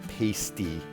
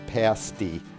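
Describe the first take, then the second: First: It uses a different, non-local vowel pronunciation. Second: It uses the local regional vowel pronunciation. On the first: The speaker calls it wrong. "not pasty" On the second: The speaker calls it right. "in the U P, it is pronounced pasty"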